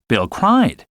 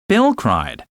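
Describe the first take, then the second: First: The word cried carries the stress. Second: The word Bill carries the stress. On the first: Bill cried rather than laughed. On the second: It was Bill, not the listener, who cried.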